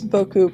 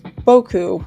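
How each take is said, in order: First: The emphasis is not on the first syllable. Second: The emphasis is on the first syllable.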